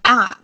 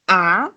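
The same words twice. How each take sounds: First: The syllable is said with the fourth tone. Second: The syllable is said with the second tone. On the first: "fourth one is going to be a" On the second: "the second tone is going to be a"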